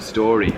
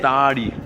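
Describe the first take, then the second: First: The first vowel sounds like 'or'. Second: The first vowel sounds like 'ah'.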